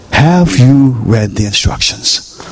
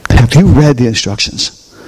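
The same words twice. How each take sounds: First: Stretched-out "Have you read the instructions"; slow, deliberate question. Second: Said in the usual way. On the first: Real, not acted. Pastor challenges the congregation on reading, slow and pointed. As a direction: dwell on each word, leaving it to sink in.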